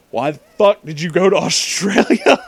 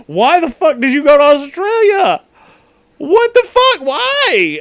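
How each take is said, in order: First: Said in the usual way. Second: Shrieking. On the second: Retold or imitated. Retelling own yelling at friend.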